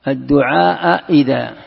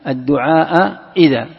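No difference in how they are said.

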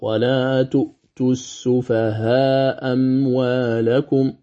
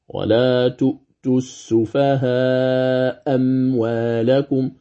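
First: The first hamza is dropped with a short vowel. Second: The first hamza is dropped with a lengthened vowel. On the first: "بإسقاط الهمزة الأولى، يقرأ" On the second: "وله وجه آخر المد"

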